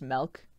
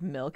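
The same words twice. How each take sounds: First: The vowel is the 'eh' sound of 'melt'. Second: The vowel is the 'ih' sound of 'mill'. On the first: "replaced I's with E's" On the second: "instead of milk"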